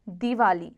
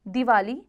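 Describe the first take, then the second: First: दिवाली with a long dee, ending falling; corrected form. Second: दिवाली with a short di, ending lifted; wrong form. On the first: Teacher gives the correction, दिवाली with long dee. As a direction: say दिवाली as deewali. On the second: Teacher shows pupils the error, दिवाली with short di. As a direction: say दिवाली with a quick first vowel. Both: Shown as a demonstration. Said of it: "कुछ अशुद्ध और शुद्ध".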